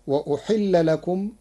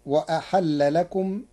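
First: وأحل said uhilla, with a damma on the hamza; Hafs reading. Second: وأحل said ahalla, with a fatha on both the hamza and the ح; fatha on hamza and haa. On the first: Teacher quoting the usual passive reading of وأحل. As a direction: start وأحل on u. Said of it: "قرأ ورش كلمة وأحل". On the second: Teacher showing Warsh's active reading of وأحل. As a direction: open وأحل with a-ha-lla. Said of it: "بفتح الهمزة والحاء". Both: Shown as a demonstration.

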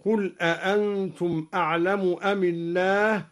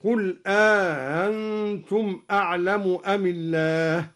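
First: "أأنتم" with a long alif between the two hamzas. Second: "أأنتم" with alif added and the second hamza softened; eased second hamza. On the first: Teacher demonstrates alif inserted between the hamzas of "أأنتم". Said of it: "وأدخل ألفا بين الهمزتين". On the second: Teacher shows the easing of the second hamza in "أأنتم". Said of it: "مع تسهيل الثانية هكذا". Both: Shown as a demonstration.

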